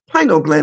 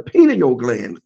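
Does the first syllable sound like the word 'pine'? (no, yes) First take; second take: yes; no. First: The first syllable sounds like the word pine. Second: The first syllable does not sound like pine. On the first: The name comes from its pine cone shape. The speaker calls it right. "it's spell pine, P-I-N-E-A-L, pineal gland. So it's a pineal gland" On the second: This is how people commonly say it. The speaker calls it wrong. "and not a pineal gland, as people call it"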